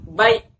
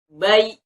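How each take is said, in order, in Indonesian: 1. Suku kata berakhir dengan hentakan. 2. Suku kata berakhir lembut tanpa hentakan. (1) "itu salah" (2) "Tapi baik"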